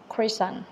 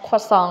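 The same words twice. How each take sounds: First: It is said with an American pronunciation. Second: It is said with a French pronunciation.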